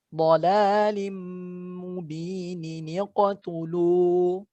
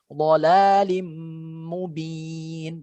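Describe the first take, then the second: First: Mubin gains a linking nin and joins the next word. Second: The phrase stops after mubin with no added sound. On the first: "Kalau dibaca wasal sambung" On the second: "kalau dibaca waqaf dia harus dhalalim mubin, biasa saja"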